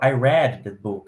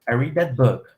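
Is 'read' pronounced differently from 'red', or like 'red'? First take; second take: like red; differently. First: The word read sounds like red. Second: The word read does not sound like red. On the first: The reading happened in the past. "No passado, a gente fala ... É a mesma pronúncia de vermelho" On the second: The reading happens in the present. "apesar de no presente falar"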